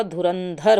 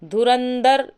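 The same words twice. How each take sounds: First: धुरंधर ending in aspirated "-dhar"; correct form. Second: धुरंधर ending in plain "-dar"; no breath on the last d of धुरंधर; wrong form. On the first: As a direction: breathe out on the last dh of धुरंधर. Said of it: "धुरंधर होता है". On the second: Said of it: "धुरंधर नहीं होता". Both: Shown as a demonstration.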